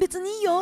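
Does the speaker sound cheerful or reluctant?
cheerful. It sounds light and cheerful. The person truly does not mind. "全然別にいいよって言われるのと"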